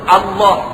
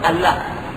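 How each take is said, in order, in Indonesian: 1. Bunyi L itu tebal. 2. Bunyi L itu tipis. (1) "Dia kena sebut" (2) "tak boleh sebut"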